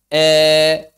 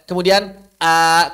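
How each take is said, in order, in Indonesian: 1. Vokalnya condong sepenuhnya ke bunyi e. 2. Vokalnya adalah bunyi a terbuka biasa.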